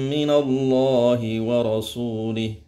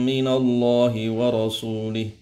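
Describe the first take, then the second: The two takes are said the same way.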